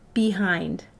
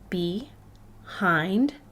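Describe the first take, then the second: First: The two syllables are joined without a pause. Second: The two syllables are split by a pause. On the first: "If I put the syllables together" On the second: "I have be, hind"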